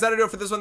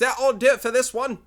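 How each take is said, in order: First: It is said in his normal accent. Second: It is said in an attempted British accent.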